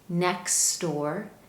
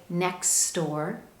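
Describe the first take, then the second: The two takes are said the same way.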